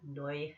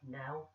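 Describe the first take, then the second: First: It is said in a Northern Irish accent. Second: It is said in a standard accent.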